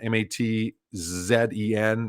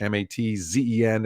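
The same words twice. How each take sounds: First: The letter Z is pronounced zed, British style. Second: The letter Z is pronounced zee, American style.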